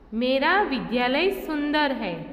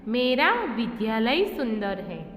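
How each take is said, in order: First: The stress is on सुंदर. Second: The stress is on विद्यालय.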